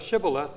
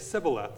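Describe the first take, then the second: First: The word begins with a sh sound. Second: The word begins with an s sound. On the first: The speaker calls it right. "Instead of Shibboleth" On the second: The speaker calls it wrong. "They mispronounced the word and said Sibboleth. They couldn't do the SH sound"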